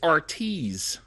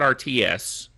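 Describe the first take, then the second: First: It ends with a plural s sound. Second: It ends with the spelled letter S. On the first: It names more than one RT device. The speaker calls it right. "it's R Ts with a plural S" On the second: It reads as a three-letter abbreviation. The speaker calls it wrong. "Not R T S"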